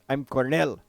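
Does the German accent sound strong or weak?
strong. The German accent is strong and harsh. The speaker calls it right. "He had a harsh German accent"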